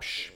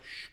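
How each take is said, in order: First: It is a harsh, annoyed hush. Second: It is a calm, soothing hush.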